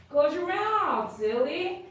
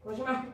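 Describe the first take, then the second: First: High, drawn-out swooping coo; playful pet scolding. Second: Said in the usual way. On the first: Real, not acted. Groomer teasing a dog to close its mouth, high playful singsong.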